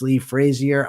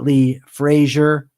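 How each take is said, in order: First: The surname is said a non-American way. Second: The surname is said the American way. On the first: The speaker calls it right. "It's Lee Frazier" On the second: The speaker calls it wrong. "It's not Lee Frazier. I'm used to saying Frazier. That's how we pronounce it in America"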